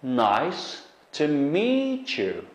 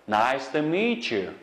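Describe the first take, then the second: First: Nice to meet you, drawn out with weight on meet; slow teacher demo, meet stressed; slow model phrase. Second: Said in the usual way. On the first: Shown as a demonstration. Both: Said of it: "Endi bu qarasanglar".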